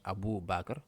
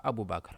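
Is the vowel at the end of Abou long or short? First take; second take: long; short. First: The vowel ending Abou is lengthened. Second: The vowel ending Abou is short. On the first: The speaker calls it right. "mais Abou Bakr" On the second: The speaker calls it wrong. "On ne dit pas Abou Bakr"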